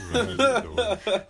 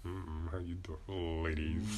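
First: High, slow laughing pickup line; sleazy Mike voice. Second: Low, slow sleazy pickup line; sleazy Mike voice. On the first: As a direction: ham up the creepy charm while laughing. Horny Mike persona again. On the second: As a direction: lay on the creepy charm. Horny Mike persona greeting. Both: Pretend.

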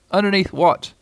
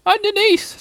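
First: Moderately raised bear voice, questioning; puzzled Pooh. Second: Tiny, very high strained voice; underneath-sounding squeak. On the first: Pooh asking squashed Piglet, puzzled. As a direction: ask it in puzzlement. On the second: Piglet squashed under Pooh answering, small and squeaky. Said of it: "in an underneath kind of a way". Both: A narrator's reading.

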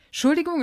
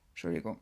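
First: Said in the usual way. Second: "Entschuldigung" croaked out very low and quiet, right after a burp; burped apology. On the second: Real, not acted. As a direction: say "Entschuldigung" deep in the throat mid-burp. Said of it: "nehmt mir den Rülps nicht übel". („Entschuldigung“ tief gerülpst)

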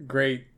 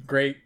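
No difference in how they are said.

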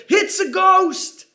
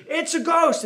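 First: High, slow frightened cry of a ghost sighting; terrified cry. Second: Mock scream. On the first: A narrator's reading. Disciples in the boat crying out at a figure on the water, terrified. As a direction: cry out in fear as if seeing a ghost. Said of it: "they cried out with fear". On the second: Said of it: "twelve grown men screaming".

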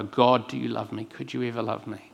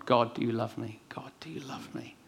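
First: Said in the usual way. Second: Barely voiced, pleading whisper to God; whispered prayer. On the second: Preacher retelling his all-night prayer, in a whisper. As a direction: breathe the plea almost silently.

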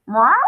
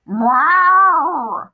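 First: Short cat meow, rising at the end; brief inquiring cat call; questioning meow. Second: Long, loud, high cat meow, falling at the end; drawn-out, forceful cat call; insistent meow. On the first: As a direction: mew like a puzzled cat. Narrator voices Muffin the cat. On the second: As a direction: yowl like a demanding cat. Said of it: "Muffin said more insistently". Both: A narrator's reading.

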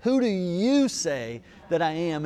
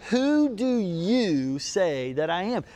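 First: Said in the usual way. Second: "Who do you say that I am?" slowed, each word weighed, stress on "who"; slow emphatic question. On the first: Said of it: "There's the question". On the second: Shown as a demonstration. Pastor to congregation, slow weighty question. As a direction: let "who" land and draw the question out. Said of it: "What a great question".

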